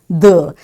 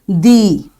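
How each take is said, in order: First: The vowel is a short 'uh' sound. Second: The vowel is a long 'ee' sound. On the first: The next word starts with a consonant sound. "if the very next word is starting with a consonant, you will say it the" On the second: The next word starts with a vowel sound. "if ... the very next word is starting with the vowel sound, you will say it as the"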